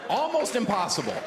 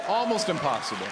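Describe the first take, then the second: First: Proud boast. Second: Said in the usual way. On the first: Shown as a demonstration. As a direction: crow it to the crowd. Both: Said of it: "I pull it off because I care".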